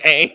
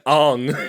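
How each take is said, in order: First: The name has an 'ah' vowel sound. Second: The name has an 'oh' vowel sound. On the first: The speaker calls it right. "instead of saying Aang" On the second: The speaker calls it wrong. "I was saying like uh Ong instead of saying Aang"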